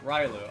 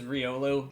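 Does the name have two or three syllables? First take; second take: two; three. First: The name has two syllables, like rye-loo. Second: The name has three syllables, like ree-oh-loo. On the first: The speaker calls it wrong. "my little mispronunciations" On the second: The speaker calls it right. "the official pronunciation of this is Riolu"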